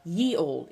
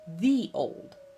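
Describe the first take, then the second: First: The first word begins with a y sound. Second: The first word begins with a th sound. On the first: The speaker calls it wrong. "So it's not ye old" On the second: The speaker calls it right. "it's a T H sound"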